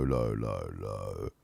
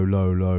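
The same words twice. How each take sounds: First: Going deep down on "low, low". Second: Said in the usual way. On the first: Shown as a demonstration. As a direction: drop deep and soft on "low, low". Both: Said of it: "back to low".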